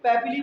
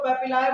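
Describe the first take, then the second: First: पैपिली ending in a long "ee"; medical pronunciation. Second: पैपिलाए ending in a long "eye" sound; alternative pronunciation. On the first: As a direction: say पैपिली with the last syllable like "lee". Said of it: "actually pronounce होता है medical term में". (पैपिली, आख़िर में लंबी "ई" की आवाज़) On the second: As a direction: say पैपिलाए with the last syllable like "lie". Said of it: "कुछ लोग इसको पैपिलाए बोलेंगे". (पैपिलाए, आख़िर में "लाए" की आवाज़) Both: Shown as a demonstration.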